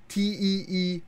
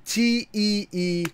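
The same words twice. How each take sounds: First: Said in the usual way. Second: Slow, corrected spelling of T E E; slow careful spelling. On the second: Shown as a demonstration. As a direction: spell T E E slowly and deliberately. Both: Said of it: "I added one extra E".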